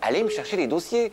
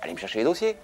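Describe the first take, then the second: First: It is said in a harsh, bossy tone. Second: It is said in a gentle, neutral tone.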